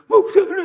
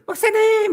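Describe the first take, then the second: First: The greeting sounds heartfelt and sincere. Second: The greeting sounds put-on and insincere.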